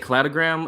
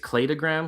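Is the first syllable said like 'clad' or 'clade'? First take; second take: clad; clade. First: The first syllable sounds like 'clad'. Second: The first syllable sounds like 'clade'. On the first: This is how the speaker habitually says it. "I always say cladogram" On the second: The word comes from 'clades'. "it's cladogram because it's clades"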